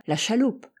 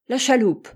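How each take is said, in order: First: Said in the usual way. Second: A sharp, louder cry, pitched higher; exclaimed. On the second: A narrator's reading. Hatteras seizes on Altamont's word, exclaiming. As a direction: throw it back as an outburst. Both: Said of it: "s'écria Hatteras".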